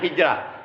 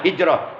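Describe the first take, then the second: First: The last syllable is said with a plain 'ra'. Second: The last syllable is said with a heavy 'ro'. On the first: The speaker calls it wrong. "kita nyebutnya hijrah" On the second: The speaker calls it right. "saya sendiri menyebutnya hijrah karena itu huruf ro"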